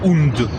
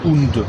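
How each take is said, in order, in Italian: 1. La parola finisce con un suono D sonoro. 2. La parola finisce con un suono D sonoro.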